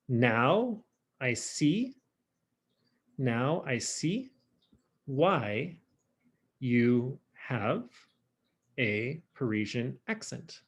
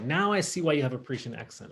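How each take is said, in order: First: Very slow translation with long pauses; word by word. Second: Said in the usual way. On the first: Shown as a demonstration. Teacher translating French for the class, slow and word by word. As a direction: spell out the meaning piece by piece, slowly.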